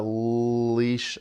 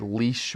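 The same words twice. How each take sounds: First: "leash" with a long held "l"; stretched-out word. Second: Said in the usual way. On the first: Shown as a demonstration. Teacher showing how to hear sounds, "leash" stretched out. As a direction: draw out "leash" slowly from its first sound. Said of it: "We'd stretch out leash".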